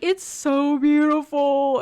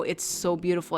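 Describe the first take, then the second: First: High, loud, hammed-up weepy wail; mock ugly crying. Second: Said in the usual way. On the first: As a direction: wail it like a sensitive guy overcome by a sunset. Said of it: "he's crying at the sunset". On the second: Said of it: "an amazing feeling of, like".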